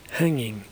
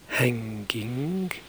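First: The ng is not followed by a k sound. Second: The ng is followed by a k sound. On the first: The speaker calls it right. "say hanging" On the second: The speaker calls it wrong. "Don't say hanging"

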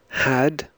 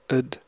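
First: The word has a full, clear vowel. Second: The word has a short, reduced vowel. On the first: "I'll read the strong and the weak form" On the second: "The weak form before consonants"

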